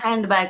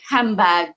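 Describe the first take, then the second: First: Every consonant in the word is fully pronounced. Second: One middle consonant is dropped from the word. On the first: "not say handbag" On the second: "guys eliminate one sound like handbag"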